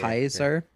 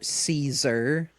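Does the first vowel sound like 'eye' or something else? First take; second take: eye; something else. First: The first vowel sounds like 'eye'. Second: The first vowel does not sound like 'eye'. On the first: The speaker calls it right. "the A I is a, like a I sound" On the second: The speaker calls it wrong. "this is butchering actual Roman or like Latin pronunciation"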